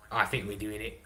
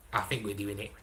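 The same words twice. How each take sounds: The two takes are said the same way.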